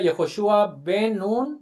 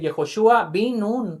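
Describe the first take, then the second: First: The middle word has an 'e' vowel. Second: The middle word has an 'i' vowel. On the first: "en lugar que diga" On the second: "con Jirik"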